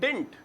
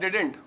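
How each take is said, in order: First: It has one syllable with a final t. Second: It has two syllables with a final t. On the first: This is an informal shortened form. "बड़ा ही short करके" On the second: This is the standard contraction. "डिड not को मिला के क्या बोलते हैं"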